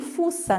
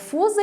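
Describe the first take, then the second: First: The middle consonant is a hissing S sound. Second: The middle consonant is a buzzing Z sound. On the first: The speaker calls it wrong. "não é semifusa nem, nem fuça" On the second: The speaker calls it right. "com som de Z"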